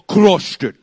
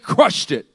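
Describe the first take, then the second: First: It is said in a put-on Russian accent. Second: It is said in a plain, ordinary accent.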